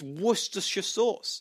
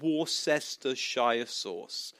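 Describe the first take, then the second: First: Worcestershire is said with few syllables. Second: Worcestershire is said with many syllables. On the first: The speaker calls it right. "no, it's not. It's" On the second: The speaker calls it wrong. "he's saying it wrong"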